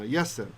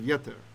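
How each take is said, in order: First: The middle consonant is an S sound. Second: The middle consonant is a T sound. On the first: "So it's a T with a dot and an S without" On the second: This is the reading with the dot. "instead of Yeter"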